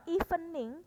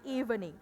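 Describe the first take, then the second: First: "evening" as "ee-fe-ning"; higher, louder "evening" with a hard f; wrong f in "evening". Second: "evening" as "eev-ning" with a voiced v; smooth "evening", v not f; correct v in "evening". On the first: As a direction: say "evening" with f for v, in three syllables. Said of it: "bukan evening". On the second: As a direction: say "evening" with a buzzing v. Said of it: "tapi evening". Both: Shown as a demonstration.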